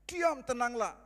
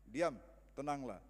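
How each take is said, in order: First: It is shouted loudly over imagined wind. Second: It is spoken calmly at normal volume. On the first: The speaker had to overcome the noise of the storm. "Mungkin dia berteriak karena angin kencang" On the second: A simple word was enough without raising the voice. "atau cuma diam, tenanglah"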